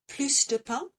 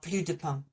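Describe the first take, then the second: First: The S at the end of plus is pronounced. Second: The S at the end of plus is silent. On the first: More of the thing is wanted. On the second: There is none of the thing left.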